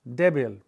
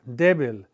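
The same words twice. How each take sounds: The two takes are said the same way.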